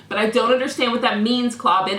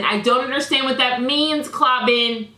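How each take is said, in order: First: Mild indignation, pressing him with "understand"; mildly heated. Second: Repeats it higher and louder, pressing harder; more heated. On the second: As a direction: hit "means" with rising exasperation. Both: Real, not acted. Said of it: "as I'm getting heated".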